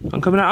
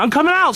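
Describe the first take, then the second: First: Said in the usual way. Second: High, loud call out; calling out loudly. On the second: Real, not acted. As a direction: shout it out to them. Calling out from inside.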